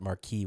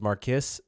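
First: The name is said with a French-style pronunciation. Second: The name is said with an English-style pronunciation. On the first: The speaker calls it right. "which is how you're supposed to pronounce it" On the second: The speaker calls it wrong. "I pronounced as Marquis at first"

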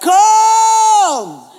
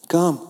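First: It is shouted loudly, as if over a storm. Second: It is said quietly and calmly.

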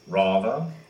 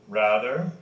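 First: The first vowel is a broad open 'ah'. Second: The first vowel is a flat front 'a'. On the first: This is the British way of saying it. "They, of course, have" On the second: This is the American way of saying it. "where we have that flat A"

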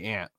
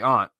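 First: It is said the general, non-Northeastern way. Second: It is said the Northeastern way. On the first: This is how most other people say it. "We don't say aunt. Most Correct. People say aunt, but not us Northeast Rubes" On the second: This is how the speakers themselves say it. "we say aunt"

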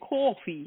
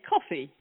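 First: It is said with a Brooklyn 'caw-fee' vowel. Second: It is said in the speaker's own plain accent. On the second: "we say coffee"

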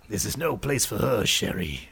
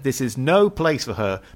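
First: It is said in an imitation of Gambit's voice. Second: It is said in the speaker's plain voice.

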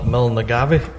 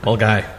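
First: The name is sounded out letter by letter. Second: The name is said in a short clipped form. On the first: The speaker calls it wrong. "I've always pronounced it wrong" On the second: The speaker calls it right. "that's wrong. It's Mulgai"

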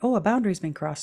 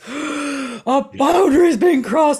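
First: It is said calmly and matter-of-factly. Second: It is said with anger and rage. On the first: The speaker simply notices the limit was passed. The speaker calls it right. "because your feelings were so clean, you went" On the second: The speaker reacts with hostility to the limit being passed. The speaker calls it wrong. "instead of"

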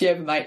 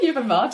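First: The word 'mate' is said as one syllable. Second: The word 'mate' is said with two syllables. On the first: It is the local Australian way. "In Aussie, M-A-T is mate, so it's yerba mate to us" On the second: It sounds cultured. "It sounds very, very"

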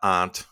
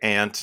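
First: It uses the pronunciation heard in Virginia. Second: It uses the speaker's native Midwestern pronunciation. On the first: "not aunt, even though I've lived in Virginia for 14 years" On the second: "I'm going to say aunt"

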